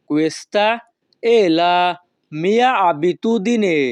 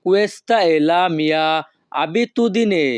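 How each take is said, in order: First: Questa è la mia abitudine repeated, mia abitudine stretched very slowly. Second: Questa è la mia abitudine, each syllable drawn out slowly; slow Italian model phrase. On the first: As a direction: spell it out slowly, lingering on mia. (আরও ধীরে পুনরাবৃত্তি) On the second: (ধীরে ধীরে Italian উচ্চারণ) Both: Shown as a demonstration. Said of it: "এই বাক্যের Italian ভাষা হবে".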